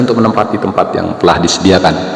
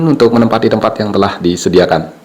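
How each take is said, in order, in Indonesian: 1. Suaranya memiliki efek echo tambahan. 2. Suaranya terdengar kering tanpa echo. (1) "Ini saya menggunakan echo" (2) "ini tanpa echo"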